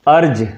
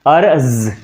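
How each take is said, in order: First: अर्ज ending in a plain j sound; अर्ज with j as in jam; arj with j. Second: अर्ज ending in a z sound, with the nukta; अर्ज with z as in zoo; arz with z. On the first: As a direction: say अर्ज as "arj" without the nukta. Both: Shown as a demonstration. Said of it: "लिखा है".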